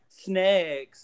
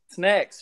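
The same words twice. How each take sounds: First: The word is said with exaggerated careful articulation. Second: The word is said softly and casually. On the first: The speaker calls it wrong. "some people try to over pronunciate it" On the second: The speaker calls it right. "we just wanted a softer word"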